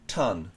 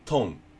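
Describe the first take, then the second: First: The vowel is a short open "uh" sound. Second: The vowel is a rounded "oh" sound. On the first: The speaker calls it right. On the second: The speaker calls it wrong.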